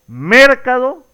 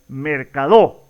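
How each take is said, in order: First: The stress is on the first syllable. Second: The stress is on the last syllable.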